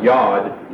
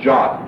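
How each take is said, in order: First: It starts with a y sound and ends in d. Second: It starts with a j sound and ends in t. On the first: "or Yod, Y-O-D" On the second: "also could be pronounced Jot, J-O-T"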